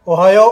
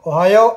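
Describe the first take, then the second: No difference in how they are said.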